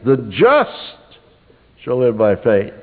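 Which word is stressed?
just. The word "just" carries the stress. "Once you would underline "just,""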